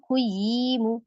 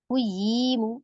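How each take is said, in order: Both takes have the same delivery.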